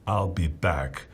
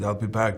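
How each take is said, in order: First: It is said in a dramatic movie-character voice. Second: It is said in a plain, casual voice. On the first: The speaker calls it right. "so I said in the movie, okay" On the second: The speaker calls it wrong. "no, no, no, no, the way you said it in the movies"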